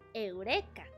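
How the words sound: The word is pronounced with Spanish sounds. "In Spanish is Eureka"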